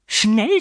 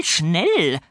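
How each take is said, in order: First: First Schnell pitched very high and rising; urgent high Schnell. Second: Falling second schnell. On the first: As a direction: snap out Schnell, climbing up. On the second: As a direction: bring schnell down with a final push. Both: A narrator's reading. Fräulein Schimmel hurrying.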